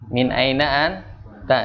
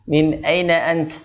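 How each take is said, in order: First: The last word ends with a final vowel. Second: The last word ends on a consonant.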